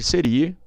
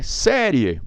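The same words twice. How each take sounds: First: Serie said se-RI-e; stress on middle syllable. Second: Série with SÉ open and strong; stress on first syllable. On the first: Teacher rejects the unaccented form, stress on RI. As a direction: put the beat on RI in serie. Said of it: "nada de serie". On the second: Teacher gives the correct form, stress on SÉ. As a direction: hit the SÉ of série. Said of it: "Se não é nada de serie". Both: Shown as a demonstration.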